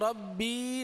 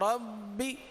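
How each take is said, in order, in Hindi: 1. आख़िरी स्वर लंबा खींचा जाता है। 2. आख़िरी स्वर छोटा रखा जाता है। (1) "खींचेंगे नहीं, रब्बी नहीं पढ़ेंगे" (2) "सही ना"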